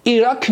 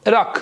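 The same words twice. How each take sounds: First: «عراق» said as "i-rak", clear ee first; wrong "i" pronunciation. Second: «عراق» said as "ı-rak", dull unrounded first vowel; correct ı pronunciation. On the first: Teacher warns students off the mistake, saying "i-rak". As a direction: start «عراق» on a clear "ee" sound. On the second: Teacher gives students the correct form, "ı-rak". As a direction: start «عراق» on Turkish ı, never "ee". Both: Shown as a demonstration. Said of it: "عراق نیست ها".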